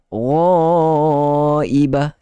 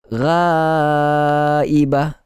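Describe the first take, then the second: First: The vowel after gh sounds thick and heavy. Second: The vowel after gh sounds thin and light. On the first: The speaker calls it right. "Sepatutnya begitu" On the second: The speaker calls it wrong. "Makhraj betul tetapi tidak ada isti'la, tidak ditebalkan"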